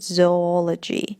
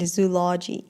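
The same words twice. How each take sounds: First: The word does not begin with 'zoo'. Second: The word begins with a 'zoo' sound. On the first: The speaker calls it right. "правильное произношение будет zoology" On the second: The speaker calls it wrong. "many people say zoology или zoology. That's not correct"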